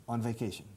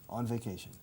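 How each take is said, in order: The two takes are said the same way.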